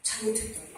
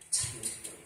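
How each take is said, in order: First: Voiced but much softer; soft spoken repentance. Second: Breathy whisper of confession; whispered repentance. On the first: Preacher repeats the confession softly and voiced. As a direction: say it softly, head bowed. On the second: Preacher whispers a confession to the congregation. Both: Shown as a demonstration. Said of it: "회개해야 합니다".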